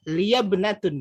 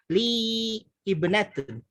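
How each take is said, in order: First: The words run together without a glottal break. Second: The words are separated with a glottal break. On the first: This follows the Quranic reading rule. "kalau di Quran kan apa sesuai kaidah, ... langsung dibaca" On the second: This is the everyday way, easier to say. "untuk memudahkan lisan di, dipotong"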